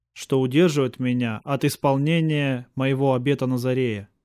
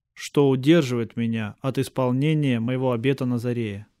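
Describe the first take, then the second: Both takes have the same delivery.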